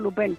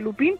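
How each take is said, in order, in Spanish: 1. Se pronuncia a la manera francesa. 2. Se pronuncia a la manera española. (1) "sino Lupin" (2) "No se dice Lupin"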